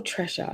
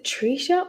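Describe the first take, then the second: First: TRESHA with a short "e", TRESH-a; second pronunciation option. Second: TRISHA offered with a long "ee", TREE-sha; first pronunciation option. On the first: Asking a viewer how her name is said, Tresha as TRESH-a. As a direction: say Tresha as "TRESH-a", rhyming with "fresher". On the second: Asking a viewer how her name is said, Trisha as TREE-sha. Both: Shown as a demonstration. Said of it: "know how to say your name".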